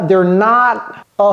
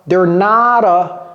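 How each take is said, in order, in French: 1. Le t dans not est avalé. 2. Le t dans not ressemble à un d. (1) "elle a avalé ça" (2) "elle pouvait mettre également un D ici"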